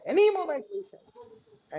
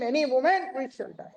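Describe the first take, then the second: First: "Any moment we shall die" pushed much higher, peaking on "any"; "Any moment we shall die" repeated, far higher and more urgent; climactic heavy voice. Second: "Any moment we shall die" said high and forceful with a falling end on "moment"; "Any moment we shall die" in a raised guru's voice, first take; heavy proclaiming voice. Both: Retold or imitated. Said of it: "a very heavy voice".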